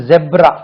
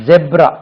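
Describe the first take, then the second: The two takes are said the same way.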